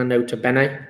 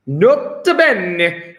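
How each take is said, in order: First: Said in the usual way. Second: Put-on slow, drawn-out Italian accent. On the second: Teacher showing off a favourite Latin note, in an Italian accent. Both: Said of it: "Gotta say it with an Italian accent".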